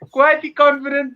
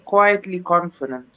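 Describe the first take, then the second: First: The phrase is said loudly and forcefully. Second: The phrase is said at a normal, soft volume.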